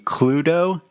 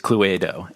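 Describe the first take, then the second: First: It is said in a British accent. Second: It is said in an Italian accent, every letter sounded. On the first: "The British pronunciation would be" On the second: "Italians have this way of pronouncing every single letter, her accent"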